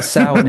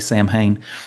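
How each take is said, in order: First: It is pronounced differently from its spelling. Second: It is pronounced just as it is spelled. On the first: The speaker calls it right. "is the actual way to say it" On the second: The speaker calls it wrong. "when they hear us say Sam Hain"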